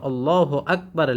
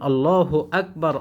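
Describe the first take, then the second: No difference in how they are said.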